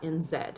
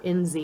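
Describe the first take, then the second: First: The last letter is said the New Zealand way, zed. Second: The last letter is said the American way, zee.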